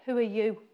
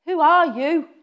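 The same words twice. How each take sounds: First: Said in the usual way. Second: Higher, louder demanding who are you; challenging shout. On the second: Retold or imitated. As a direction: hurl the question at him. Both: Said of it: "How many ways can you say that".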